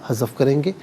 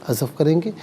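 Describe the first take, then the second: Both takes have the same delivery.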